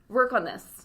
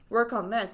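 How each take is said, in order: First: It is said in a harsh, assertive tone. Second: It is said in a neutral, plain tone. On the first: A stern criticism of the work. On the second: A simple suggestion to improve something.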